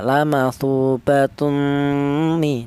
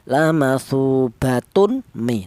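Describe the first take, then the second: First: The n sound is faint and hidden before the m. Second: The n sound is pronounced clearly before the m. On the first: "dibaca Uh, apa ya samar ya" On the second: "Tidak boleh tanwin ini dibaca jelas atau dibaca idhar"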